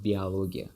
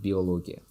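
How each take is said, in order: First: Биология with the first O turned to A; Russian pronunciation. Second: Биология with a full O after "bi"; pronounced with O. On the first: Teacher contrasting Russian for learners, биология with an A sound. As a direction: say биология as "bee-a-LO-gia". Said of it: "in Russian, it sounds like". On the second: Teacher contrasting for learners, биология with O kept, not A. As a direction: say биология as "bee-o-LO-gia". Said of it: "not биология". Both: Shown as a demonstration.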